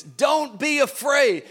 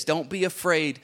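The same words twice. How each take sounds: First: Raised, slow, insistent don't be afraid; fervent preaching. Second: Said in the usual way. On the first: Acted. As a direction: proclaim it to the crowd. Preacher repeats with fervor.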